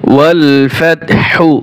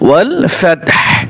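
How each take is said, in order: First: The last word ends with a short u vowel. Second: The last word ends on a bare h sound. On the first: The recitation continues without stopping. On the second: The reciter stops at this point.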